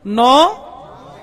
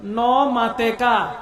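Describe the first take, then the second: First: Slow, louder call-back of নমাতেকা; crowd repeats loud. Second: Chittagonian word. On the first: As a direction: shout নমাতেকা back slowly. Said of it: "বলেন না". (শ্রোতাদের জোরে ধীরে নমাতেকা বলা) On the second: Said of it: "চট্টগ্রামের ভাষায় কি বলে". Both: Shown as a demonstration.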